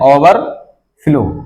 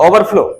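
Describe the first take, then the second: First: It is said with a gap between over and flow. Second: It is said smoothly as one word, without a break. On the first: The speaker calls it wrong. "इसको आप ऐसे नहीं कह सकते हैं ओवर flow, ये गलत हो जाएगा" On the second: The speaker calls it right. "एक बार में बोल, बोलना पड़ेगा"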